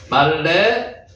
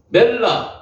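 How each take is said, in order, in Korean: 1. 모음이 'mal-le'처럼 들립니다. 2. 모음이 'mel-la'처럼 들립니다. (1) "히브리 원어로 이야기를 하면은 말레가 되는 겁니다. 그거 수정하겠습니다" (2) "지난번에 멜라, 발라크, 라바시라고 말씀드렸는데"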